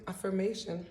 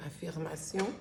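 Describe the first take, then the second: First: Affirmation said the French way, afirmasjon; French slip. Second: Affirmation said in French, a-fir-ma-SYON with nasal end; French pronunciation. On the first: Real, not acted. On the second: Shown as a demonstration. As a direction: say Affirmation the French way, stress on the last syllable. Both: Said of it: "I almost said it in French".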